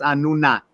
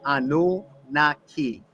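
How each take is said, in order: First: The name is said the common modern way. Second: The name is said the older Sumerian way. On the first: "commonly is uh, pronounced Anunnaki" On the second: "I believe its Sumerian pronunciation was Anunnaki"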